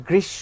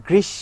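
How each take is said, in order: The two takes are said the same way.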